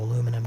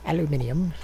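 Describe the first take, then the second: First: It is said with four syllables, American style. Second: It is said with five syllables, British style. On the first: "I think it's aluminum" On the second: "that's how they always say it"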